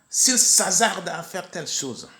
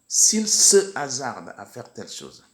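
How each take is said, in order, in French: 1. La voyelle de 'se' tombe devant 'hasarde'. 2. La voyelle de 'se' est maintenue devant 'hasarde'. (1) "On entend de temps en temps"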